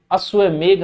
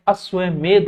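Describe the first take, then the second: First: अश्वमेघ ending in घ, a gh sound; wrong final gh. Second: अश्वमेध ending in ध, a dental dh; correct final dh. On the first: Teacher showing the common mistake, अश्वमेघ ending in gh. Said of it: "अश्वमेघ नहीं होता है". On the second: Teacher correcting students, अश्वमेध ending in dh. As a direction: say अश्वमेध with the tongue on the teeth at the end. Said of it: "अश्वमेध होता है". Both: Shown as a demonstration.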